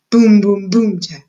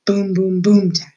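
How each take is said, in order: First: Ominous drumbeat, second beat louder. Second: Ominous drumbeat. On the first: Narrator drumming out the march to the dungeon, booming. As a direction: boom punched out loud, tat clipped short. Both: A narrator's reading. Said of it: "an ominous sound that went something like this".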